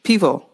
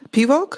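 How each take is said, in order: First: "Pivo" ending on an open o, no k; "Pivo" repeated with a falling tune and no final consonant; corrected pronunciation. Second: "Pivok" with a stray k on the end; "Pivok?" pitched high and rising, adding a final k; mispronounced pivo. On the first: Learner repeating after the Czech speaker, corrected "Pivo". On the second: Learner trying out a new Czech word, mispronounced as "Pivok". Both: Real, not acted. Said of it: "Just pivo".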